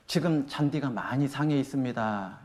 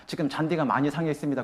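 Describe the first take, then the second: First: Soft, slow polite notice; softer, slower explaining tone; gentle explanation. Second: Said in the usual way. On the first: Shown as a demonstration. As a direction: say it calmly, giving the reason. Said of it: "요렇게 말하는 거예요". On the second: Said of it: "이렇게 나오라고 내가 말해줄 수 있어요".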